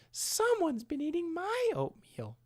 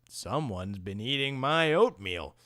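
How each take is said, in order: First: It is said in a high Mama Bear voice. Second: It is said in a deep Papa Bear voice.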